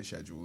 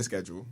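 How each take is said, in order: First: "schedule" as SHED-jool, soft sh; English pronunciation. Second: "schedule" as SKED-jool, hard sk; own pronunciation. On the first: Guest on how some English say it, sh in schedule. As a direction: start "schedule" with sh. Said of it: "some people in England say". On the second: Guest giving his own version, sk in schedule. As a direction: start "schedule" with sk. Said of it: "I say schedule". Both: Shown as a demonstration.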